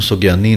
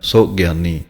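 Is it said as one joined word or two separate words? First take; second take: joined; separate. First: It is run together as one word. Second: It is split slightly into two words. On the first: The speaker calls it wrong. "ਇਹਨੂੰ ਸੁਗਿਆਨੀ ਨਹੀਂ ਕਹਿਣਾ ਹੈ" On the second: The speaker calls it right. "ਥੋੜ੍ਹਾ ਜਿਹਾ ਅਲੱਗ ਕਰਕੇ ਬੋਲਣਾ ਹੈ"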